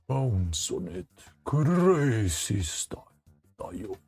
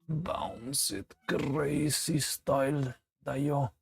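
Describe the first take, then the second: First: It is said in a very deep voice. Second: It is said in a normal voice.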